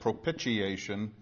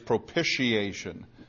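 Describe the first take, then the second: First: The second syllable sounds like pitch. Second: The second syllable sounds like pish. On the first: The speaker calls it wrong. "like pitch, like pitching a ball, and that's really not right" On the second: The speaker calls it right. "like pish instead of pitch"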